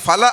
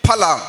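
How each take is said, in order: First: The word begins with an English-like f sound. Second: The word begins with a breathy, aspirated p sound. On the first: The speaker calls it wrong. "ಅದು ಫಲ ಅಲ್ಲ" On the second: The speaker calls it right. "ಅದು ಫಲ. ಮಹಾಪ್ರಾಣ"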